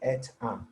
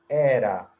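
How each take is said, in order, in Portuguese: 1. As duas palavras são ditas separadas, uma por uma. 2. As duas palavras se juntam e viram uma só. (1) "Eu não vou falar at a" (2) "Eu vou juntar"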